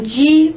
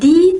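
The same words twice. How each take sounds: First: The d is strong, with the jaw closing. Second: The d is made lightly with the tongue. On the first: This is how it sounds in Portuguese. "Em português nós usamos um di bastante forte, assim, fechando a mandíbula" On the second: This is how it sounds in Spanish. "que está hecho con la lengua"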